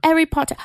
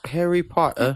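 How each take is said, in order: First: High and loud "Harry Potter", gleeful; playful fangirl squeal of "Harry Potter"; excited echo. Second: High, put-on British "Harry Potter"; playful fake British accent; mock British. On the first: Acted. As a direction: shout "Harry Potter" back with glee. Echoes partner's mock Harry Potter. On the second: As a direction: say "Harry Potter" in a posh mock-English lilt.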